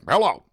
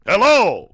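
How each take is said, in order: First: It is said in a flat, bored tone. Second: It is said in a low, sultry tone.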